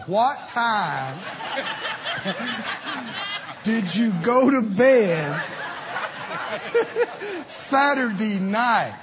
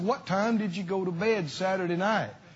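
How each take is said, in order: First: The question is spoken at a slow pace. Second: The question is spoken at a normal pace.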